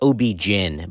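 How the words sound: Gyn begins with a j sound, like gin. This is how it is said in the South. "In the South, we say gyn, like the liquor"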